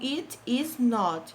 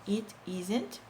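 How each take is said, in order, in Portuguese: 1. As três palavras são ditas separadamente e por completo. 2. is e not se juntam em uma palavra só, mais rápida.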